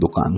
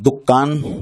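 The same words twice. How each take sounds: First: The k sound is single. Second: The k sound is doubled. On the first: This is the Persian form. "फारसी में तखफीफ के साथ बोलते हैं" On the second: This is the Arabic form. "अरबी में दुकान बोलते हैं इसको, काफ की तशदीद के साथ"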